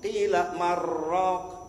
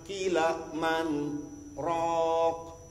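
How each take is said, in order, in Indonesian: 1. Bunyi n menyatu ke r tanpa jeda. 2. Ada jeda singkat yang memisahkan 'man' dari 'raq'. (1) "Kalau dibaca jadi idgham" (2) "itu kan apa namanya sakta"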